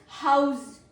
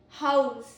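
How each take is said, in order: First: The word ends with a z sound. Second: The same.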